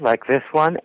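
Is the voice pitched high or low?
high. The voice is pitched high. "You can have one voice that's higher"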